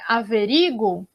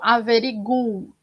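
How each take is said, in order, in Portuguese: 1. A tônica cai na sílaba ri. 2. A tônica cai na sílaba gu. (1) "Aí o ri é a, é a tônica" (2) "se eu tiver a tônica no gu"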